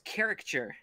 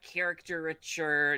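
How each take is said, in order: First: It starts with cari, without an extra syllable. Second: It starts like character, with an extra syllable. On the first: The speaker calls it right. "no, it's caricature" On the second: The speaker calls it wrong. "it's like characterature"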